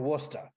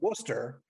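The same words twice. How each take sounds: First: It is said with the local Massachusetts pronunciation. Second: It is said with a standard, non-local pronunciation. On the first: "the local pronunciation" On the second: "the correct pronunciation"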